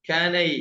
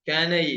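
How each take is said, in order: The two takes are said the same way.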